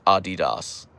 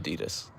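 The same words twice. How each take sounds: First: It is said the non-American way. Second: It is said the American way. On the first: "No no American says Adidas" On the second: "We say Adidas"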